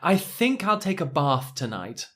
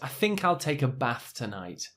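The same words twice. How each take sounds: First: Bath has a long open 'ah' vowel. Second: Bath has a short flat 'a' vowel. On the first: The speaker sounds upper class and cultured. "I'll uh, do an impression of someone from central London" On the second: The speaker sounds like most people in the country. "probably the majority of English or U K people would say it a bit more like this"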